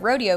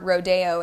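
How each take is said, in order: First: It is pronounced the English way. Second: It is pronounced the Spanish way.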